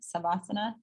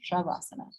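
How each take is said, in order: First: The word begins with a plain s sound. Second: The word begins with an sh sound. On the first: The speaker calls it wrong. "hear them say Savasana, Savasana. That's incorrect" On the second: The speaker calls it right. "It's Shavasana"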